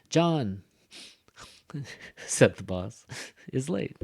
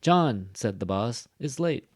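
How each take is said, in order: First: Hammed-up breaths between three groups; exaggerated breath pauses. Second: Three groups, "John" punched; short comma pauses. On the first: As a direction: take a breath around "said the boss". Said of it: "take a little breath". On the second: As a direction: pause briefly around "said the boss". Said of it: "We don't stop as long". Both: Shown as a demonstration.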